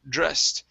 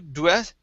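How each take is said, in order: First: The word begins with a dr sound. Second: The word begins with a dw sound. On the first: The speaker calls it right. "it's dr, dressed" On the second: The speaker calls it wrong. "With an u, dwest"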